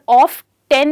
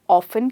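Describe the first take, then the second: First: The ending is said like the number ten. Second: The t is silent, like ofen. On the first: The speaker calls it wrong. "पर ऑफ टेन नहीं कह सकते हैं" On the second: The speaker calls it right. "या तो ऑफन कह सकते हैं"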